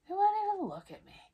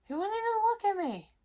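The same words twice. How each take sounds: First: High and loud again, quicker; a quick, exasperated echo, still pitched up; indignant repeat. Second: High, loud outrage; pitched way up in disbelief; indignant. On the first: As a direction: hammer home the hurt. Repeats the complaint faster. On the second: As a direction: still stung that he ignored her. Ex wouldn't look at her. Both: Real, not acted.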